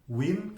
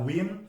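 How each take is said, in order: No difference in how they are said.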